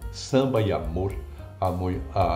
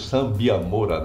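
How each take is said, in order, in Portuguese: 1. Cada vogal entre as palavras é pronunciada com clareza. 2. As vogais entre as palavras se juntam. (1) "ele fazia questão de dizer as vogais" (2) "eles falam"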